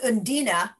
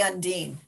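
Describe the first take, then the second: First: The name ends with an 'ah' vowel. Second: The name ends with an 'n' consonant. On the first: This is how the makers say the name. "They actually pronounce it Undina" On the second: This is the speaker's own way of saying it. "I would say Undine"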